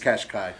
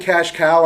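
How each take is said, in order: First: The second syllable sounds like kai. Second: The second syllable sounds like cow. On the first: The speaker calls it right. "I think it's cash kai" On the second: The speaker calls it wrong. "I've been saying cash cow"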